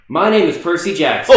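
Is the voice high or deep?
high. It is said in a higher, boyish voice.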